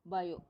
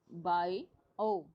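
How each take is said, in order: First: Said in the usual way. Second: "bio" drawn out slowly as two separate parts; split into two parts. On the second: Shown as a demonstration. Teacher showing students the two parts, slow split "bio". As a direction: pull "bio" apart, a pause between its halves. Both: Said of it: "दो part है".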